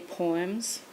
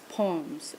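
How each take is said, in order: First: The vowel in the word is drawn out. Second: The vowel in the word is kept short. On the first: This is the speaker's own accent. "I would say poems" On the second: This is how the students say it. "they would say, no, it's poems"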